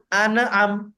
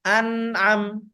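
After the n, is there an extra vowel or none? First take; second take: extra vowel; none. First: An extra vowel is added after the n. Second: The n runs straight into the next syllable. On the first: The speaker calls it wrong. "bukan ane'am" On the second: The speaker calls it right. "Yang benar an'am"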